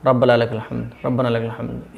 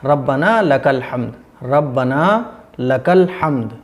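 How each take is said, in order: First: Low, hurried "रब्बना लकल हम्द", words merged; mistaken slurred recitation. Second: Deliberate "रब्बना लकल हम्द", each word separate; clear correct recitation. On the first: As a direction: run "रब्बना लकल हम्द" together carelessly. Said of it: "इस तरीके से नहीं पढ़ना है". ("रब्बना लकल हम्द" दबा कर, जल्दी में) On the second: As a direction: articulate "रब्बना लकल हम्द" slowly and fully. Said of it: "साफ पढ़ना है". ("रब्बना लकल हम्द" साफ़, ठहरकर) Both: Shown as a demonstration.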